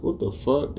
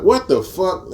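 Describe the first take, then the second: First: Higher, hushed disbelief; stunned. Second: Much higher, louder incredulous yell; outraged disbelief. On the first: Watching the leaked video, a higher, softer stunned what the fuck. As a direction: mutter it in stunned shock. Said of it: "I'm like". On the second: Reacting to the leaked video, a high, loud shocked yell. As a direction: blurt What the fuck in shock. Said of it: "I was just like". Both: Retold or imitated.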